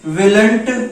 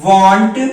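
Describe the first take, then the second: First: It is said with an 'l' sound: willnt. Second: It is said without an 'l' sound: wont. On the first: The speaker calls it wrong. "हम इसको विलंट और सैलेंट नहीं पढ़ते हैं" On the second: The speaker calls it right. "वांट और सांट पढ़ते हैं"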